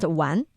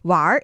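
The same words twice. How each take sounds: First: The word ends without an r-sound. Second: The word ends with an r-sound. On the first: This is the standard form of the character. "The character itself is pronounced 玩" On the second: This is the northern form. "I'm giving you the northern 儿化音 version of it"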